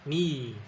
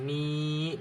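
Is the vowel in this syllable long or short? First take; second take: short; long. First: The vowel is cut short. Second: The vowel is held long.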